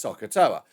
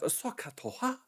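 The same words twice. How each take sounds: First: Said in the usual way. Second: Badly imitated Japanese accent on SOHCAHTOA; mock Japanese accent. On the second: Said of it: "when I'm ruining your accent".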